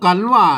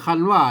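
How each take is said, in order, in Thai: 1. คำแรกเริ่มต้นด้วยเสียง k ไม่พ่นลม 2. คำแรกเริ่มต้นด้วยเสียง kh พ่นลม (1) "อ่านว่ากันว่านะ" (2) "ไม่ใช่คันว่านะ"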